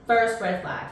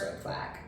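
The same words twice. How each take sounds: First: Said in the usual way. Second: A whispered aside to the viewers. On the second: Shown as a demonstration. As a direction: whisper it, no voice at all. Repeated for emphasis.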